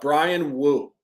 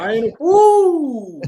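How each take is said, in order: First: The name is said casually, without force. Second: The name is said loudly, with authority.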